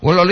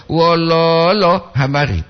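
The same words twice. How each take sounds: First: "Wololo" with short, quick syllables; no lengthened O in "Wololo"; "lo" pendek. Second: "Wololo" with the middle lo drawn out, then habari; "lo" panjang. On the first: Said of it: "itu sedih". ("Wololo" pendek, tanpa tarikan) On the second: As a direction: stretch the second syllable of "Wololo". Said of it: "Bukan mololo". ("Wololo" dengan "lo" tengah ditahan) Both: Shown as a demonstration.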